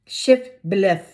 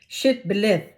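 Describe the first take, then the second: Both takes have the same delivery.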